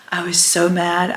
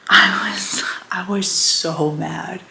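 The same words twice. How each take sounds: First: Said in the usual way. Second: A real hushed whisper, slowed down; whispered confession. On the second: Real, not acted. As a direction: breathe the admission out slowly. Confessing anger about the letter.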